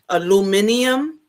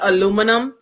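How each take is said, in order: First: The word is said with five syllables. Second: The word is said with four syllables. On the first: The speaker calls it wrong. "So you say aluminium, aluminium instead of aluminum" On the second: The speaker calls it right. "instead of aluminum"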